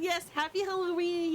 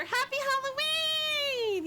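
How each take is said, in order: First: Said in the usual way. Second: High, slow drawn-out "Happy Halloween"; much higher stretched cheerful call; sing-song greeting. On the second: Real, not acted. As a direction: sing it out to a friend. Greeting friend, repeated.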